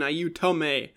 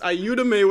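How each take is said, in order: First: The middle consonant is a t sound. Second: The middle consonant is a d sound. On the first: It is taken as Italian. "for Italian" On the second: It is the Spanish version. "with a D for Spanish"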